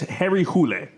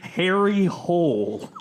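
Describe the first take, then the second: First: The surname is said with a Swedish-style vowel. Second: The surname is said like the English word hole. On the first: "the like original uh, Swedish is" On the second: "they pronounce it in the English language movie"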